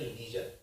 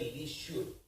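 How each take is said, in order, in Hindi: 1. बीच का व्यंजन 'zh' जैसा बोला जाता है, जैसे 'measure' में। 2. बीच का व्यंजन 'sh' जैसा बोला जाता है, जैसे 'sure' में। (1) "इसको बोलते हैं लीजर" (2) "इसको ये नहीं बोलते लीश्योर"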